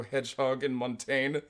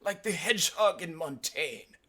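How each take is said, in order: First: Said in the usual way. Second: High put-on professor's voice; mock-scholarly comeback; smiling retort. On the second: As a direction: deliver the taunt high, with a smile.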